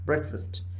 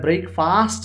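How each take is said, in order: First: The second syllable has a reduced 'fust' vowel. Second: The second syllable has a full 'fast' vowel. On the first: The speaker calls it right. "ഫാസ്റ്റ് അല്ല ഫസ്റ്റ് ആണ്" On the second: The speaker calls it wrong. "ഇവിടെ ബ്രേക്ക്ഫാസ്റ്റ് എന്നല്ല പറയേണ്ടത്"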